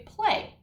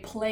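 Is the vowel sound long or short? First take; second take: long; short. First: The vowel is a long A sound. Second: The vowel is a short A sound. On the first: The speaker calls it right. "You hear that A long vowel sound" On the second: The speaker calls it wrong. "You don't say play"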